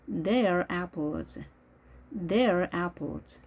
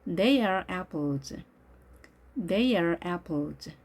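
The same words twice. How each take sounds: First: "They are" merged into one syllable, "they're"; contracted form. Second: Said in the usual way. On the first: Shown as a demonstration. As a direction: drop the A of "are" in "They are apples". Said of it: "주어 동사 축약해서". (They are를 they're로 축약해서) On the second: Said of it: "아 발음이 없어진 거죠".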